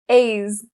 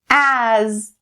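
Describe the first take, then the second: First: The vowel is not the vowel of 'apple'. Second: The vowel is the vowel of 'apple'. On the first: The speaker calls it wrong. "It is not correct if you say a's" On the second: The speaker calls it right. "like the a as in apple"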